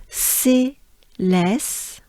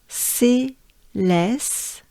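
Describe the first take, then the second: Both takes have the same delivery.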